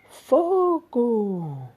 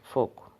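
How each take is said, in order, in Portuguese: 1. É exclamada, com entonação urgente e enfática. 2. É dita de forma neutra, sem entonação exclamativa. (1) "Você vai entender que algum lugar está pegando fogo" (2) "Se eu digo apenas fogo, não, aí já não, não quer dizer nada"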